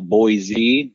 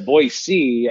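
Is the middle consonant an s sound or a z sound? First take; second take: z sound; s sound. First: The middle consonant is a voiced z sound. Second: The middle consonant is a voiceless s sound. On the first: The speaker calls it wrong. "if you say it with a Z" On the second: The speaker calls it right. "I think you're saying it right"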